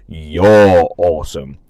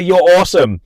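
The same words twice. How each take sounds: First: Lower, slow drawn-out compliment; mock-deep "You're awesome". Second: Higher, louder cheer; peppy "You're awesome"; bright "you're awesome". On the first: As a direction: drop low and stretch every word. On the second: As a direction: toss off a quick upbeat compliment. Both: Shown as a demonstration. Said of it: "Maybe that".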